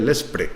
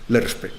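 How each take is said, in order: First: The acronym is said as 'lespre'. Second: The acronym is said as 'lerspe'. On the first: This is how most people say it. The speaker calls it wrong. "la mayoría de la gente dice LESPRE" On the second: This is the actual form of the acronym. The speaker calls it right. "pero es LERSPE"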